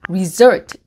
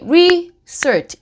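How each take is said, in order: First: The stress is on the second syllable. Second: The stress is on the first syllable. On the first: The speaker calls it right. "강세가 result 그 su 부분에 있고" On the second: The speaker calls it wrong. "R이니까 그냥 오케이, research 이렇게 할 수도 있거든요"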